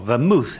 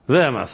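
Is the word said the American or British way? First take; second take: American; British. First: The word is said the American way. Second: The word is said the British way.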